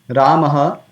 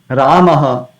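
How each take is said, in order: Both takes have the same delivery.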